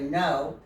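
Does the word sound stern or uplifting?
stern. The word sounds stern and harsh. The speaker calls it wrong. "instead of no"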